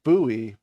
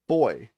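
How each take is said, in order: First: The word is said unlike 'boy', non-British way. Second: The word is said exactly like 'boy', British way. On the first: This is not the British pronunciation. "the British pronunciation is not buoy" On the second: This is the British pronunciation. "but boy"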